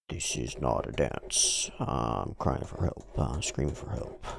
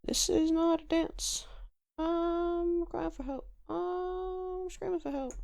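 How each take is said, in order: First: Very low, understated plea; low-voiced captive. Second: Hayase. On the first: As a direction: drop the voice low, no real screaming. Repeats captive lines in low voice. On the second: Acted. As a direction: plead in a tiny high voice, no real scream. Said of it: "says Hayase".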